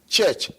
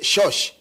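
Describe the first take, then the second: First: The word has ch sounds at both ends. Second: The word has sh sounds at both ends. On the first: The speaker calls it right. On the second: The speaker calls it wrong.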